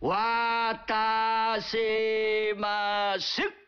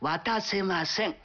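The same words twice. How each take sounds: First: It is said slowly and deliberately. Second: It is said at a normal speed.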